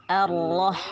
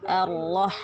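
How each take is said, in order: The two takes are said the same way.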